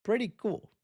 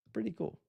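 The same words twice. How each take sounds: First: Said in the usual way. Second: Much softer, muttered to himself; quiet repeat. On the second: Real, not acted. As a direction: say it again under your breath. Quieter repeat of same phrase.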